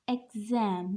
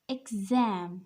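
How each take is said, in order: Both takes have the same delivery.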